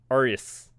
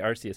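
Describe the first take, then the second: First: The C sound in the middle is silent. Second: The C sound in the middle is pronounced. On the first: "the C is silent" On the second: "I'm gonna say Arceus"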